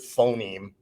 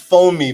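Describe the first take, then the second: First: It is said as one single word. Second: It is said as two separate words. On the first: "It's actually the word phoneme" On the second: "I'm saying that as if it's two words"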